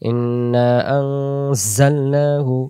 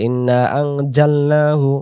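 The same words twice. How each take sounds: First: The middle consonant is a 'z' sound. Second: The middle consonant is a 'j' sound. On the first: The speaker calls it right. "যা অক্ষর কথায় যেমন সূরাতুল কদরে আছে" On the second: The speaker calls it wrong. "তখন জিম অক্ষর আসবে।"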